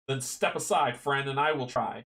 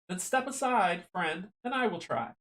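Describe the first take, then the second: First: The voice is pitched in a lower, normal range. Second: The voice is pitched noticeably higher than normal. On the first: The speaker calls it wrong. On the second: The speaker calls it right.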